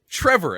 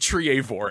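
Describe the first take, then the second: First: The first vowel is a short 'e' sound. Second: The first vowel is a long 'ee-uh' sound. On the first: The speaker calls it right. "it said Trevor" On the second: The speaker calls it wrong. "They always say Triavor"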